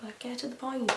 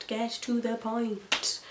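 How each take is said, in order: First: Mildly impatient, softer mock complaint; retold impatience. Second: Slow, laboured mock exasperation; drawn-out impatience. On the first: Viewer complaining the show dragged, mild impatience. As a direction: grumble it in passing, at normal speed. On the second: Viewer fed up with slow episodes, exaggerated slow impatience. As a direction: GET TO THE POINT stretched out slowly, word by word. Repeats complaint, drawn out for emphasis.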